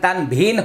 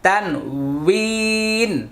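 First: The middle consonant is a v sound. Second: The middle consonant is a w sound. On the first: The speaker calls it wrong. "তানভিন হবে না" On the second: The speaker calls it right. "একটু মুখের দিকে লক্ষ্য করুন"

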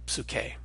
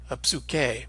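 First: The word starts directly on the P sound. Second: A short vowel sound comes before the P. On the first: The speaker calls it right. "really start on that P sound" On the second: The speaker calls it wrong. "inserting a kind of vowel sound and saying a"

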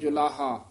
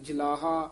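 First: The first syllable has a vowel between o and u. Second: The first syllable has a short a vowel. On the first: The speaker calls it right. "दरम्याना जा उच्चारण करना जुलाहा" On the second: The speaker calls it wrong. "ना कहना जलाहा"

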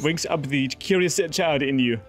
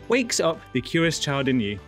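First: It is read in a French accent. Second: It is read in a plain accent.

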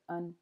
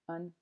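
First: The word has a reduced schwa vowel. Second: The word has a reduced schwa vowel.

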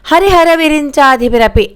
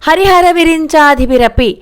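Both takes have the same delivery.

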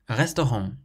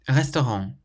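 Both takes have the same delivery.

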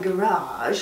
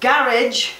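First: It is said with an American pronunciation. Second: It is said with a British pronunciation.

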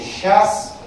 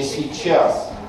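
First: The word is shortened, said in a casual way. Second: The word keeps a clear y-sound, said carefully. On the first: The speech is colloquial, close to vernacular. "распространенное произношение ... разговорной и сдвинутой в сторону просторечия" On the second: The speech is formal and bookish. "сохранением йота ... сдвинутое в зону книжности"

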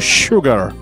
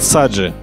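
First: The word starts with an sh sound. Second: The word starts with an s sound. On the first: The speaker calls it right. "но не sugar" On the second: The speaker calls it wrong. "когда в институте человек говорил саджи"

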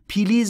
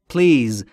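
First: A short vowel is inserted between p and l. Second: The p and l run together with no vowel. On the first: The speaker calls it wrong. "پلیز نیست عزیز دلم" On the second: The speaker calls it right. "بین پی و ال صدایی وجود نداره"

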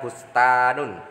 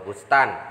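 First: The word ends with the full case ending. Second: The word ends without the case ending. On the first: This is the full vowelled form. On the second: This is the pausal form.

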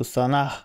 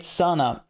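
First: The stress is on the last syllable. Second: The stress is on the first syllable.

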